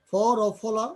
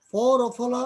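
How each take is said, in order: Both takes have the same delivery.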